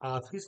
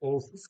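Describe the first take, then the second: First: The first vowel is a full open aa. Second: The first vowel is a full rounded o. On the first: "ऑफिस नहीं कह रहा हूं मैं" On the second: "और ना ही हम इसको ऑफिस कह रहे हैं"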